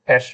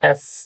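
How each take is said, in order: First: The letter name ends in a sh sound. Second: The letter name ends in an s sound. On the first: The speaker calls it wrong. "Common ভুল হয়, অ্যাশ বলি" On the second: The speaker calls it right. "এটা হবে এস as in সাউথ"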